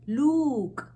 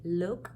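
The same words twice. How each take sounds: First: The vowel is long and strong. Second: The vowel is short and soft. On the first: The speaker calls it wrong. "We don't say look" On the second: The speaker calls it right. "we say look"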